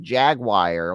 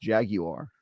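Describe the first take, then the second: First: Jaguar said as JAG-wire; jagwire pronunciation. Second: Jaguar said as JAG-you-ar; three-syllable jaguar. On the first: Retold or imitated. Quoting upset commenters, Jaguar as JAG-wire. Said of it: "a lot of people being like". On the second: Shown as a demonstration. Correcting to own way, jaguar as JAG-you-ar. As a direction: put a clear YOU inside jaguar. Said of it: "To me, that word is pronounced".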